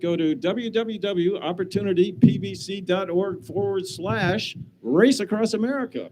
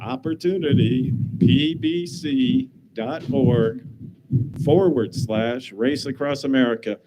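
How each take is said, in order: First: It is said at a normal pace. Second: It is said a little more slowly.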